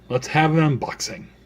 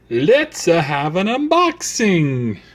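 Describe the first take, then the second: First: It is spoken in the speaker's ordinary accent. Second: It is spoken in a put-on Italian accent.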